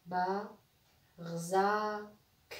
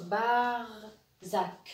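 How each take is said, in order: First: "Ba, rzak" broken after "Ba", with a clear pause; split into syllables. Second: "Barzak" very slow, R closing the first syllable: "Bar-zak"; syllable reading. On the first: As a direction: say "Ba", stop, then a long "rzak". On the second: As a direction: draw out "Bar", then add "zak". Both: Shown as a demonstration. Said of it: "la première syllabe".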